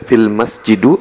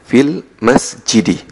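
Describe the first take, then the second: First: The last word ends in a u vowel. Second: The last word ends in an i vowel. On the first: The speaker calls it wrong. "tidak boleh dibaca" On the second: The speaker calls it right. "Jadi fil masjidi"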